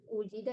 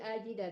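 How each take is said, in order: First: The word begins with an 'u' vowel. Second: The word begins with an 'a' vowel. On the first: The speaker calls it wrong. "bukan ujida ya" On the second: The speaker calls it right. "tapi ajida"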